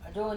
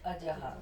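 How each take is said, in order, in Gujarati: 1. શબ્દનો અંત લાંબા o અવાજથી થાય છે. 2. શબ્દનો અંત શ્વાસભર્યા ah અવાજથી થાય છે. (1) "ભલે આપણે પહેલા બોલીએ અજો" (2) "એનું મૂળ સ્વરૂપમાં લાવવાનું"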